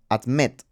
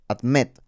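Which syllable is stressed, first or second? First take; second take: second; second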